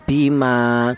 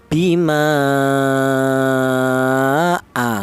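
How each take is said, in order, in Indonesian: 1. Vokal akhirnya dibaca dua ketukan. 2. Vokal akhirnya dibaca lima ketukan. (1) "itu panjangnya dua ketukan" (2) "panjangnya lima harokat ya, dua alif setengah atau lima ketukan"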